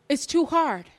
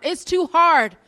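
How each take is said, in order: First: Said in the usual way. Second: "It's too hard" higher and louder, HARD pressed; "hard" leaned on with rising force; pleading stress. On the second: Shown as a demonstration.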